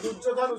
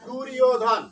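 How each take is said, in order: First: The consonant after r sounds like j. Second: The consonant after r sounds like y. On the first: The speaker calls it wrong. "দুর্যোধন উচ্চারণ না করে" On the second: The speaker calls it right. "ইয়র মতো হবে"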